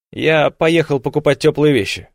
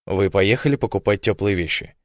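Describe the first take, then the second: First: Placating, agreeable tone on «поехал»; smooth it over gently; conciliatory. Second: Said in the usual way. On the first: A narrator's reading. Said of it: "примирительно продолжил он".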